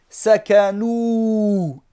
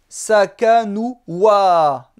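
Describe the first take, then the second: First: The word ends on an 'oo' sound. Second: The word ends with an added 'a' sound. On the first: The speaker calls it right. "On va prononcer sakanou" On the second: The speaker calls it wrong. "et non pas sakanoua"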